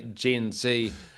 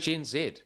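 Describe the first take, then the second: First: It is said the American way. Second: It is said the New Zealand way. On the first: This is the form used across the Pacific. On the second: This is the form used at home. "we say Gen Z here in our country"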